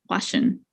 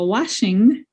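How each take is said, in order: First: The word ends without a G sound. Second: The word ends with a clear G sound.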